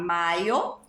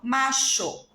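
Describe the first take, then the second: First: The middle consonant is not an sh sound. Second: The middle consonant is an sh sound.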